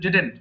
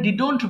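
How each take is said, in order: First: The second vowel sounds like an e. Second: The second vowel sounds like an o. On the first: The speaker calls it right. "Simply ডিডেন্ট এমনি ছেড়ে দিবেন" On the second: The speaker calls it wrong. "অনেকে ভুল করে ডিডন্ট বলেন"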